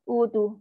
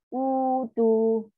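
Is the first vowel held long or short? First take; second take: short; long. First: The first vowel is said short and quick. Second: The first vowel is held for two beats. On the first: The speaker calls it wrong. "So salah" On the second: The speaker calls it right.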